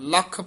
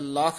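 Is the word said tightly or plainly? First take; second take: tightly; plainly. First: The word is said tightly, with a held consonant. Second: The word is said plainly, without a held consonant. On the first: The speaker calls it right. "ਕਸ ਕੇ ਬੋਲਣਾ ਹੈ" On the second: The speaker calls it wrong. "ਨਹੀਂ ਕਹਿਣਾ ਹੈ"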